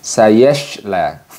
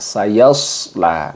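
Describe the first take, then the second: First: The middle consonant is a hushing sh. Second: The middle consonant is a heavy, hissing emphatic s. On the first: The speaker calls it wrong. "kurang tepat jika kita membacanya dengan sayashla" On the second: The speaker calls it right. "Jadi seharusnya yaitu dengan sayasla"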